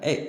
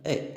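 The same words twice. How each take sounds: First: The vowel is said firmly with strong emphasis. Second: The vowel is said softly without emphasis. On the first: "yang ini ini penuh penekanan" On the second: "Ini tanpa penekanan ya"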